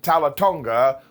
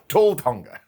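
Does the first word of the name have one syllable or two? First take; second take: two; one. First: The first word has two syllables, ending in a vowel. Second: The first word has one syllable, like 'tall'. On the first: The speaker calls it right. "we're calling him" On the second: The speaker calls it wrong. "if you want to get your pronunciation wrong"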